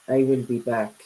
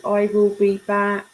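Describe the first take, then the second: First: Low, deadpan movie-robot catchphrase; Terminator. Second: Said in the usual way. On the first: Retold or imitated. Streamer teasing a viewer with a film catchphrase, Terminator impression. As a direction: lightly imitate the Terminator's low delivery. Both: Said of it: "Like the Terminator".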